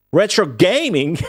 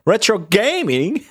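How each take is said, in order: First: Retro gaming with an Australian twang, laughing; mock Aussie TV presenter; a hammed-up Australian ad voice; imitating Australian TV. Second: Slow, higher Australian retro gaming with a rising end; drawn-out Aussie TV quip; a mock Australian presenter asking; imitating Australian TV. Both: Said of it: "that Australian T V video".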